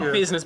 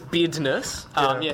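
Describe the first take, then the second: First: The middle consonant is a z sound. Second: The middle consonant is a d sound. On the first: The speaker calls it wrong. "Not business" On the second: The speaker calls it right.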